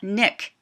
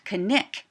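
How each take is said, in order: First: The K at the start is silent. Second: The K at the start is clearly heard. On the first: The speaker calls it wrong. "not Nick" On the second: The speaker calls it right. "Alaska Natives also pronounce the K N"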